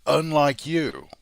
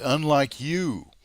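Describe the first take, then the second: First: Unlike said high, loud and slow; stress on UNLIKE. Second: Unlike you, with you pressed and drawn out; stress on you. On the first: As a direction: punch Unlike in disgust. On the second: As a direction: lean slowly on you. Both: Real, not acted.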